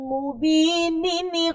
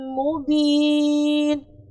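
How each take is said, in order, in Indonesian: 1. Kata itu berakhir dengan tambahan suku kata penyambung nin. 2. Kata itu berakhir pendek tanpa suku kata penyambung. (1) "Nunnya dibaca ketika jenengan lanjutkan" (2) "kalau jenengan berhenti, maka nunnya tidak dibaca"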